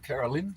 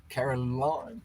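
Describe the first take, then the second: First: "Carolyn" with a short lin ending, not line; "Carolyn" said as CARO-lin, last part short and light; corrected name. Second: "Caroline" with the end rhyming with line, rising; "Caroline" said as Caro-LINE, last part like the word line; first try at the name. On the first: Correcting a viewer's name to "Carolyn" with short lin. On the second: Greeting a viewer, tries "Caroline" ending in line. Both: Shown as a demonstration. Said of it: "Don't mean to say it incorrectly".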